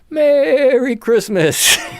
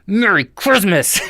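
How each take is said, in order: First: It is said in a warm, friendly tone. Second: It is said in a harsh, angry tone. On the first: The greeting is a sincere wish of goodwill. The speaker calls it right. "for a lot of us, the meaning should be" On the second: The greeting is used as a hostile statement. The speaker calls it wrong. "he says it angrily. You know, like uh, the tone is"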